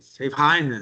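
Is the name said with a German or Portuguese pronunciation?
German. The name is said with a German-style pronunciation. "Em alemão, a pronúncia de Savigny é outra coisa"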